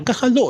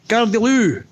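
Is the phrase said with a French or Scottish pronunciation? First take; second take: French; Scottish. First: The phrase is said gracefully with a French pronunciation. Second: The phrase is shouted with a Scottish pronunciation. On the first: The original elegant foreign phrase. "a bit more European and graceful and elegant, ooh la la" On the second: A local mangled version of the foreign phrase. "we butchered that phrase into Gare de l'eau, Scots term"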